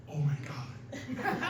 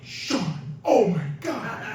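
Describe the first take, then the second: First: Slow, hushed imitation of amazement; awed whisper. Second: Mild mock scream, raised pitch; retold scream. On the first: Sean answering as the locked door opens, slow awed whisper. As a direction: whisper it slowly in mock disbelief. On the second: Friend calling to Sean as the door opens, mock scream. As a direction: exclaim it as a half-hearted scream. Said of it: "And I scream".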